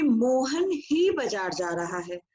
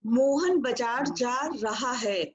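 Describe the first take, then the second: First: Mohan ही said slowly with the weight on Mohan; stress on Mohan ही. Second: Said in the usual way. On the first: Shown as a demonstration. Teacher repeating the example with stress on Mohan ही. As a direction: press on Mohan ही so only Mohan goes. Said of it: "इस बात पे बल दिया जा रहा है". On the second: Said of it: "केवल एक सिंपल बात है".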